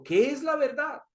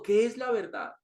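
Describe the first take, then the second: First: Higher, lightly voiced Pilato wondering; Pilato's searching question. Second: Said in the usual way. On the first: Pilato asks Jesus about truth, higher and searching. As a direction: ask it up high as a puzzled governor.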